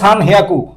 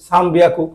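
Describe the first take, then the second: First: The second part begins with an h sound. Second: The second part begins with a b sound. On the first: The speaker calls it wrong. "হিয়াকু তো হওয়ার কথা ছিল সান হিয়াকু" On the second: The speaker calls it right. "তিন তিন দিলে হি হয়ে যায়, বি হয়ে যায়"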